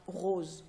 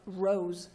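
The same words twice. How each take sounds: First: "rose" said the French way, with French r and pure vowel; "rose" in French, not English; French pronunciation. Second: "rose" said the English way, with English r and gliding vowel; "rose" in English, not French; English pronunciation. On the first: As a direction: say "rose" as a French child would. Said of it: "will be French". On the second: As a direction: say "rose" as a British child would. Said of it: "slightly different pronunciation of the word". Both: Shown as a demonstration.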